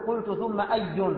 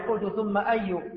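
First: The last word ends with an added -n sound. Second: The last word ends without -n, with a pause. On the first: The speaker calls it wrong. "لا تنون، ما تقول" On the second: The speaker calls it right. "يوقف على هذه الكلمة"

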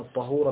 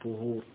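First: The first vowel is an open 'a' sound. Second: The first vowel is a rounded 'u' sound. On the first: It means the water used for purifying. "بالفتح والماء" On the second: It means the act of purifying. "بالضم"

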